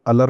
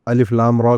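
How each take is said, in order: First: The letters are blended into one word. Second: Each letter name is said separately. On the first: The speaker calls it wrong. "अलर नहीं पढ़ते" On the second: The speaker calls it right. "इनको टुकड़ों टुकड़ों में अलग करके पढ़ा जाता है"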